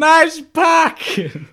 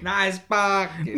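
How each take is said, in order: First: Much higher, loud slow yell; hammed-up mock shout. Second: Slow, high-ish sarcastic echo; a light imitation of the rude driver; mock grumpy driver. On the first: She repeats the driver's jab as a hammed-up yell. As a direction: bellow it like a cartoon angry driver. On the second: Friend echoes the rude driver, slow mock sneer.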